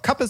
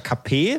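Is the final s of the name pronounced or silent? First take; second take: pronounced; silent. First: The final s is pronounced, German style. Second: The final s is silent, French style. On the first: "das sagt sich schöner im Deutschen, deswegen ... würde ich einfach Kappes sagen" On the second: "wenn man das Französisch aussprechen würde, wäre es ja Kappé, das S ist ja dann stumm"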